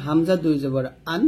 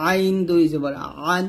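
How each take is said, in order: First: আন with a clean glottal onset; open, unpressed a in আন; plain hamza. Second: আইন and আন squeezed from mid-throat; pressed ain. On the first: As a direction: start আন on a simple catch. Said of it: "এটাও হামজা হবে". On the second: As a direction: constrict the throat on the vowel of আন. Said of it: "হলকের মাঝখান থেকে চাপ দিয়ে". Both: Shown as a demonstration.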